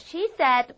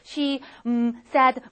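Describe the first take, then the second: First: 'she said' is said as one chunk. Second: There is a hesitation pause after 'she'.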